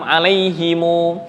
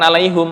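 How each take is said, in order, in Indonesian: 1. Kata itu berakhir dengan vokal u yang ditambahkan. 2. Kata itu berakhir dengan bunyi m yang tertutup. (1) "Ada yang membaca" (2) "bukan 'alaihim"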